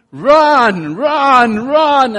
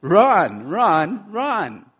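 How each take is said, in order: First: Loud high urgent cheering; rising shouted run, each one higher; screaming encouragement. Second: Milder repeat of the shout; rising urgent run, run, run; urgent command. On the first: Retold or imitated. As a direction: scream it to someone fleeing a dog. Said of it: "I'm gonna be screaming to you". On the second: Shown as a demonstration. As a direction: call it out as an order, less loud. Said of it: "But I'm telling you what".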